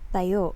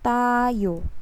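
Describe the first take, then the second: First: The word is said quickly with a short first syllable. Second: The first syllable is drawn out and lengthened. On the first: It means stand. "You pronounce it in a fast pacing" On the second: It means we. "if we will prolong the the ta"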